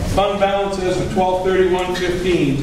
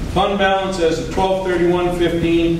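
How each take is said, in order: No difference in how they are said.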